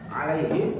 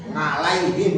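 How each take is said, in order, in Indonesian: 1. Kata ini diawali bunyi vokal biasa. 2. Kata ini diawali bunyi ng. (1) "tetap dipaksa a" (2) "nga nga mangap nga"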